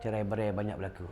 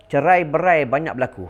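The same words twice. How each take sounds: First: Cerai berai banyak berlaku dropped low and soft; quiet repeat. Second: Cerai berai banyak berlaku said loud and firm; emphatic. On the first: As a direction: repeat it softly as a grave warning. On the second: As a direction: announce it firmly. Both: Shown as a demonstration.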